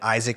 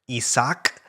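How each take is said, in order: First: The name is said with American pronunciation. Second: The name is said with Norwegian pronunciation. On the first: "I am pronouncing them in obviously the American way" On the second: "and Isaac was Isak"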